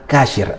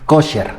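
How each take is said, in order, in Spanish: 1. La primera vocal suena como 'a'. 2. La primera vocal suena como 'o'. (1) "literalmente como te la estoy poniendo en pantalla, como viene en la escritura, así se pronuncia" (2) "una palabra que en hebreo seguramente la has oído"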